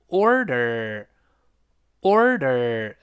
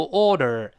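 First: Slow "order" with both r sounds curled. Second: "order" with a plain long aw, tongue uncurled. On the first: Teacher modelling order, both syllables r-coloured. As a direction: curl the tongue on or and er in "order". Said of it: "有R必然会勾舌". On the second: Teacher showing the mistake, ORDER without the r. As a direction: drop the first r from "order". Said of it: "不要读order". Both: Shown as a demonstration.

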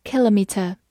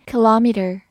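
First: British "kilometer", stress on the first syllable KIL; "kilometer" with front stress and no final r; British pronunciation. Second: American "kilometer", stress later on LOM; "kilometer" with second-syllable stress and a final r; American pronunciation. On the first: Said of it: "英式发音读作". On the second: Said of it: "美式发音重音在后面". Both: Shown as a demonstration.

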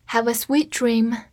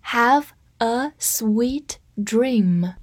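First: Said in the usual way. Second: Very slow, each word stretched; slow read. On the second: Shown as a demonstration. Teacher reads slowly for class to repeat. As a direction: stretch it out for learners. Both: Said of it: "跟我慢读一遍".

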